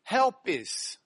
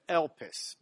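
First: The word begins with an h sound. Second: The word begins directly with a vowel. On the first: The speaker calls it wrong. "If the comma were turned the other way, we'd pronounce it helpis" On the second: The speaker calls it right. "but it's just elpis"

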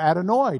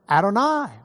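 First: It is said with an Ashkenazi Hebrew pronunciation. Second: It is said with a standard Hebrew pronunciation.

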